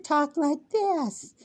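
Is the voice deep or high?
high. The voice is pitched high. This is not how the speaker ever sounded. "Never talked like this"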